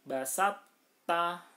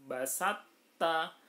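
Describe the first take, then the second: No difference in how they are said.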